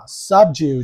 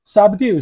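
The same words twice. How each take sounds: First: British "subdue" ending in "dyoo"; British pronunciation. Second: "subdue" as sub-DOO, no y-glide; American "subdue" ending in "doo"; American pronunciation. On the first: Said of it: "subdue就会是英国". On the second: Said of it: "subdue是美国音嘛". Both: Shown as a demonstration.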